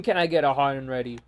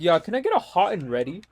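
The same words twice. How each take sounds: First: Quick, lower-pitched mocking echo; mocking repeat. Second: Lightly mimicked casual order, quick with rising end; mimicked customer. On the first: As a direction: parrot the order back in annoyance, fast and low. Throwing the customer's order back. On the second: Mimicking customers at Little Caesars.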